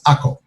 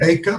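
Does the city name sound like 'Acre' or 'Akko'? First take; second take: Akko; Acre. First: The name is said as two short syllables, Akko. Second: The name is said like the English word acre. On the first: This is the name used in Israel today. "the proper pronunciation in uh, Israel of this city is Akko" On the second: This is the name the Crusaders used. "I'm saying acre"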